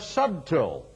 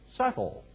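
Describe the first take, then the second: First: It is said like 'sub-til'. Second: It is said like 'suttle'. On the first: "I'm mispronouncing it deliberately" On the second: "you tend to pronounce it subtle"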